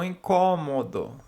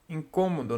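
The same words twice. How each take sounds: First: The stressed vowel is said open. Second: The stressed vowel is said closed. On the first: The speaker calls it wrong. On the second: The speaker calls it right.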